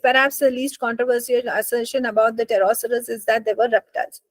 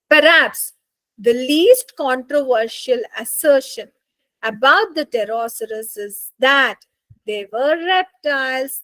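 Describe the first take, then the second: First: It is read flatly, without any stress. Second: It is read with dramatic stress and energy.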